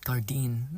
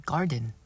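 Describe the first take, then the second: First: The name ends with a long 'deen' sound. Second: The name sounds exactly like the word garden. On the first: This is how the speaker personally says it. "I call it Gardine" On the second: This is how someone else says it is pronounced. "it's just pronounced as garden"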